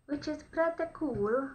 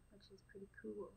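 First: Higher, louder and slow, rising at the end; excited. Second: Said in the usual way. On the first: Real, not acted. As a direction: stretch it out with delight. Repeats the phrase with a different delivery.

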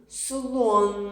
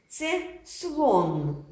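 First: Слон with the final н held long; teacher stretching слон to find the н; drawn-out word. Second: Said in the usual way. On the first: Shown as a demonstration. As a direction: hold the н at the end of слон. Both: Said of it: "Де ж звук Н".

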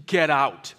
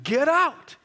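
First: Loud, curt brush-off; angry old resident. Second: Loud, high yell; furious shout. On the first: Angry resident throwing the chaplain out, loud and curt. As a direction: bark it like a grumpy resident shutting the door. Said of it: "the angriest person I'd ever met". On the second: Furious resident chasing the visitor out, shouting high. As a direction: yell it like someone hurling things at you. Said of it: "somebody would throw something at me". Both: Retold or imitated.

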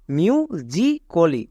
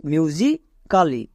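First: "মিউ জি কলি" very slowly in parts, ending "ko-li"; correct pronunciation. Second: "মিউজিক্যালি" very slowly, ending in an open "kaa-li"; wrong pronunciation. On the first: English teacher sums up the full pronunciation, slow "myu, ji, ko-li". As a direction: say "মিউ জি কলি" syllable by syllable, the a silent. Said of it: "তাহলে এর পুরো উচ্চারণ কি দাঁড়াবে?". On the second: English teacher warns of the mistake, slow mispronounced "myu-ji, kaa-li". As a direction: break "মিউজিক্যালি" into myu-ji, kaa-li, sounding the silent a. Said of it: "এর ভুল উচ্চারণটা কি দাঁড়াবে?".

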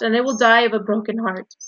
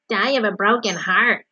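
First: Loud, earnest lament; desperate. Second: Exaggerated, scornful echo; mocking mimicry. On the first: Wilbur fears all will be lost, desperate. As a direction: plead as if truly heartbroken. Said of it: "said Wilbur in desperation". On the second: Rat mimics Wilbur's plea, mocking. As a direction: throw the words back in mockery. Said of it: "he mimicked". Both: A narrator's reading.

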